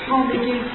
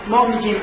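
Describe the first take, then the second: Both takes have the same delivery.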